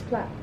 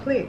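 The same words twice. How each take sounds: First: The word is said the British way. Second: The word is said the American way. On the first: The speaker calls it right. "British people... will say plait" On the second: The speaker calls it wrong. "I've heard Americans call it plait. It's not plait"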